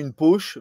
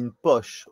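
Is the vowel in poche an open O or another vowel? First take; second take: another vowel; open O. First: The vowel in poche is not an open O. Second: The vowel in poche is an open O. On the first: The speaker calls it wrong. "não une poche" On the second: The speaker calls it right. "com som O ... mais une poche"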